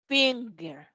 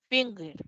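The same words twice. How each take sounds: First: "Finger" as fiŋ-ger with a back ng; ng sound demo. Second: "finger" again with the back ng; ng sound repeated. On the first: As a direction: model the ng in "Finger". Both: Shown as a demonstration. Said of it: "Acá, fing".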